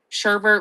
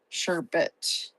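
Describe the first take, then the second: First: The second syllable has an added r sound. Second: The second syllable has no added r sound.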